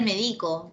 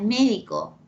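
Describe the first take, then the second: First: The stress falls on a later syllable. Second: The stress falls on the first syllable. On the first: The speaker calls it wrong. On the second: The speaker calls it right.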